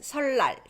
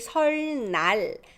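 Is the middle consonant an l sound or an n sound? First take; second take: l sound; n sound. First: The n sound turns into an l sound. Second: The n sound is kept after the l. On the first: "So it's just" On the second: "It's hard to say"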